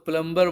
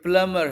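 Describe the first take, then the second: First: The b sound is pronounced in the middle. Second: The b sound is silent in the middle. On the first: The speaker calls it wrong. "बहुत से लोग इसको प्लम्बर बोलते हैं, ये wrong pronunciation है" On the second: The speaker calls it right. "बी silent होता है"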